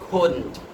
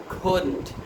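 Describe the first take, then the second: No difference in how they are said.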